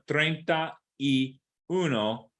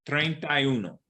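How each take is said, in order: First: Each word is said separately and distinctly. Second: The words run together like one word. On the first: "Instead of" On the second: "it sounds like"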